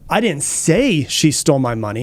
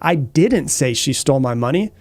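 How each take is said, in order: First: The stress is on the word say. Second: The stress is on the word didn't. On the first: It was hinted rather than said. "I might have hinted" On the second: The accusation of having said it is denied. "I'm denying the claim or the, the accusation"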